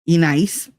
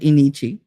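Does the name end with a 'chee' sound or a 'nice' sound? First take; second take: nice; chee. First: The name ends with the sound 'nice'. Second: The name ends with the sound 'chee'. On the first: This is how the spelling reads. The speaker calls it right. "That says E nice" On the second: This is how the mother says the name. The speaker calls it wrong. "but calls her Enichi"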